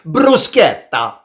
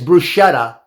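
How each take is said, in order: First: It is pronounced the Italian way. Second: It is pronounced the English way. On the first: "Italians say, of course" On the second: "the most common way of pronouncing it is"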